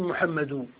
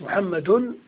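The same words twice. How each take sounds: First: The name ends without an added n sound. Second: The name ends with an added n sound. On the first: The speaker calls it wrong. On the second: The speaker calls it right.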